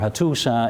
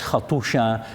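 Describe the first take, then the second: First: The consonant before the last vowel is s. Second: The consonant before the last vowel is sh. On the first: The speaker calls it right. "a simple S in, instead of my sh is even more correct" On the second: The speaker calls it wrong. "I pronounce it as Hattusha"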